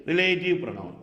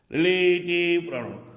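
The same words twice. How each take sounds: First: Said in the usual way. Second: relative pronoun held long on a level tone; emphatic, lengthened relative pronoun. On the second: Shown as a demonstration. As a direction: stretch the vowels of relative pronoun for the class. Teacher repeats term drawn out.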